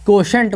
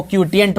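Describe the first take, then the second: First: क्वोशंट in two syllables with sh, kwo-shant; quotient pronunciation. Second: क्वोटिएंट in three syllables, kwo-ti-ent; quotient pronunciation. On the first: Teacher gives the standard reading of quotient: क्वोशंट. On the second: Teacher shows the way some people say quotient: क्वोटिएंट. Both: Shown as a demonstration. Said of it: "कुछ लोग क्वोशंट को क्वोटिएंट बोलते हैं".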